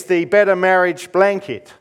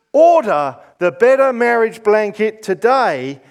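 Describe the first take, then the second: First: Said in the usual way. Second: Home shopping host. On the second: Pretend. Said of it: "Shopping channels on T V".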